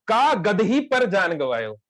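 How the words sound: The break comes after 'kaa', before 'gadahi'.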